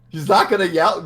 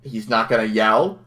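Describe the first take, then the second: First: Incredulous pitch climb; rising incredulity on the third try; higher, louder exasperated question. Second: Said in the usual way. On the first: Real, not acted. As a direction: push it up high in disbelief. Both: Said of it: "repeated, rising each time".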